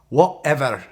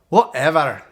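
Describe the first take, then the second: First: It is said in a Scottish accent. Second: It is said in a Scottish accent.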